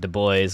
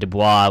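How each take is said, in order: First: The name is pronounced the English way. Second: The name is pronounced the French way. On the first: The speaker calls it wrong. "pretty much an incorrect English translation or uh, pronunciation" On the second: The speaker calls it right. "which is the the French pronunciation"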